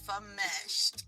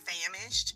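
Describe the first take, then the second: First: It sounds different from the word famished. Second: It sounds like the ordinary word famished. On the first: The speaker calls it right. "but it's fameshed" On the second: The speaker calls it wrong. "I always thought it was famished"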